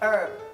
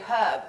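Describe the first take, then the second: First: The word begins with no H sound. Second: The word begins with a clear H sound. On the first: This is how the American says it. "You would say" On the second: This is how the British speaker says it. "I would say herb because there's an H in it"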